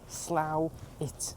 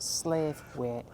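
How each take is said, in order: First: The name is said as 'slow-it'. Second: The name is said as 'slave-wait'. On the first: The speaker calls it right. "how you pronounce it is Slough, it" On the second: The speaker calls it wrong. "not slave weight"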